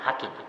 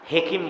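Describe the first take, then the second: First: The first vowel sounds like 'a'. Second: The first vowel sounds like 'e'. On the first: The speaker calls it right. "শব্দটা আরবিতে আসছে হলো হাকিম" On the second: The speaker calls it wrong. "হেকিম বলবেন না"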